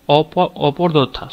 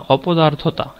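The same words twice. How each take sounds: First: Slow, faltering false start on অপদার্থতা; mispronounced অপদার্থতা. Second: অপদার্থতা pronounced properly as a correction; corrected অপদার্থতা. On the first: Real, not acted. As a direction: stumble over অপদার্থতা, garbling its middle. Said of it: "উচ্চারণটা আমি ভুল করছি". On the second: Shown as a demonstration. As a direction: say অপদার্থতা correctly, without stumbling. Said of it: "অপদার্থ বলি না আমরা".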